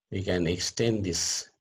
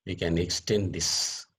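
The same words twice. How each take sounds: The two takes are said the same way.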